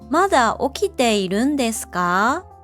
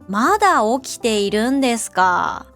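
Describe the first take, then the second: First: The pitch rises at the end. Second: The pitch falls at the end. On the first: The speaker is mildly surprised or concerned. "The first rising intonation shows mild surprise or concern" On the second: The speaker is criticizing the listener. "the second falling intonation sounds critical"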